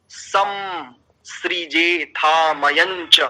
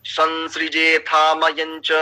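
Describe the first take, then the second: First: सम सृजे with a plain m, said very slowly; wrong pronunciation. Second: संसृजे with a nasal ं, said slowly; correct pronunciation. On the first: Teacher showing the wrong way, slow. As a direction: drag out सम सृजे, closing on म. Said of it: "तो अशुद्ध हो रहा है ना". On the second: Teacher giving the correct form, slow. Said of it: "तो यहाँ पर उच्चारण क्या होना चाहिए?". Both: Shown as a demonstration.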